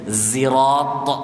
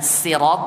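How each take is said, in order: First: The word begins with a z sound. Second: The word begins with an s sound. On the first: "ada yang bacanya pakai zai" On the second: "ada yang bacanya sirat pakai sin"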